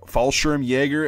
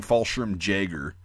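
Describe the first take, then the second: First: Fallschirmjäger ending YAY-grr, J said as Y; American R's in Fallschirmjäger, but a Y for the J; American pronunciation. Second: Fallschirmjäger ending JAY-grr, English J; hard English J in Fallschirmjäger; mispronounced English J. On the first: Showing Americans what's understood, Fallschirmjäger with a Y sound. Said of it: "as an American, they'll understand you better". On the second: Showing what not to say, Fallschirmjäger with J as in jam. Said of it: "better than saying Fallschirmjäger". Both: Shown as a demonstration.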